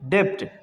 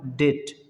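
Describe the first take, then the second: First: A b-like sound is pronounced before the t. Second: The vowel goes straight into the t. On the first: The speaker calls it wrong. "जो कि गलत sound है" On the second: The speaker calls it right. "इसका सही sound क्या होगा? डेट"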